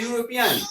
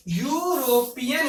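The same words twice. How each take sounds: First: Said in the usual way. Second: यूरोपियन softly split as यू, रो, पियन; syllable by syllable. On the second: Shown as a demonstration. Teacher showing students how it is said, यूरोपियन in separate syllables. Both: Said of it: "इसको बोलते हैं".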